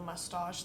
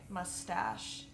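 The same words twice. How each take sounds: First: Mustache is said in the speaker's non-American accent. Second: Mustache is said in an American accent. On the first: "when I said I love your mustache" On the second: "they would say mustache"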